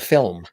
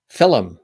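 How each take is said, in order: First: It is said as one plain syllable. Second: It has an extra vowel, like fill-um. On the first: This is the usual way to say it. "instead of film" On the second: This is how an older Irish-influenced speaker says it. "has always consistently said film"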